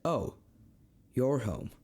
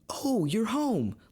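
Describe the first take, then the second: First: The voice sounds flat and displeased. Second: The voice sounds warm and happy. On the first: The speaker is not glad the listener is home. "That's not a good thing" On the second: The speaker is glad the listener is home. "that's a great thing"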